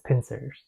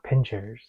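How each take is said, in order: First: The middle consonant is an 's' sound. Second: The middle consonant is a 'ch' sound. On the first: The speaker calls it right. "it's pincers" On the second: The speaker calls it wrong. "It's not pinchers"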